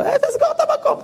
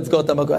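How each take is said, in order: First: Mocking echo. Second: Said in the usual way. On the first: Shop owner mocks rabbi's request.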